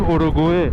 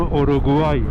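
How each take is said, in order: First: The name ends with an 'eh' sound. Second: The name ends with an 'ay' sound. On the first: This is how Iranians usually say it. The speaker calls it wrong. "به اوروگوئه میگیم اوروگوئه" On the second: This is how the locals say it. The speaker calls it right. "به اونم میگم اوروگوای"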